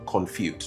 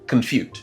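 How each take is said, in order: First: The first syllable has a full, unreduced vowel. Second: The first syllable has a neutral schwa vowel. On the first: The speaker calls it wrong. "I'm sure someone might be saying confute. No" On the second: The speaker calls it right. "Remember the schwa sound, neutral sound"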